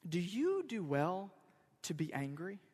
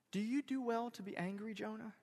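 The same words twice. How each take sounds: First: Measured question. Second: Gentle, quiet question lifted in pitch; soft question. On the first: God answering Jonah's tantrum, measured. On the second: God gently challenging Jonah's tantrum, soft. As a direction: ask it in one soft flow, fading on "Jonah". God's question repeated more softly. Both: Acted.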